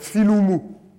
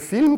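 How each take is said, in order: First: It is said with added vowels after each consonant. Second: It is said as one syllable, no added vowels.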